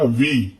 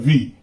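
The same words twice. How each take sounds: First: The vowel is drawn out long. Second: The vowel is short and quick. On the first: "व में बड़ी की मात्रा का उपयोग करते हैं" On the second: "व में छोटी की मात्रा का उच्चारण करते हैं"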